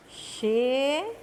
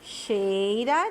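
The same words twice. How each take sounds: First: "Che-ira" broken up with long pauses; syllable by syllable. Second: Said in the usual way. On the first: Shown as a demonstration. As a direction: dictate "Che-ira" piece by piece. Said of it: "Nós vamos separar as sílabas". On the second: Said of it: "quais são as palavras destacadas".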